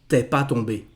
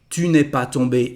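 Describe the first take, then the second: First: Ne is dropped and tu merges with es. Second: Every word including ne is pronounced. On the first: This is how it sounds in everyday speech. "in spoken French" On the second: This is the standard written form. "is the correct form"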